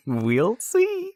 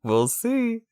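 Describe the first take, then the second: First: High laughing taunt. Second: High, far-off taunt; smug teasing voice. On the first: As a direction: laugh it out smugly. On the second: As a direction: sing it smugly, way up high. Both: Pretend. Teasing after winning debate.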